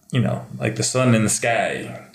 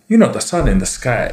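First: Said in the usual way. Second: Sung-along Tongan lilt, a touch louder; kids' TV Sun with a Tongan accent. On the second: Retold or imitated. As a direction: imitate Uncle Aaron's Tongan accent as the Sun. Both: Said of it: "He talked like this the whole time".

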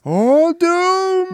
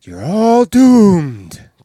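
First: High, loud drawn-out wail; ominous echo. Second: Very slow, loud doomsday warning; slow ominous raspy drawl. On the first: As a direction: wail it like a prophet of doom. Echoing the doom line, higher. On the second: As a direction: drag out the doom. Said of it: "he says". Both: Retold or imitated.

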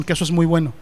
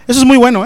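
First: Said in the usual way. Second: "muy bueno" said louder and higher; repeated with stronger emphasis; emphatic repeat. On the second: Shown as a demonstration. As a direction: punch "muy bueno" with conviction.

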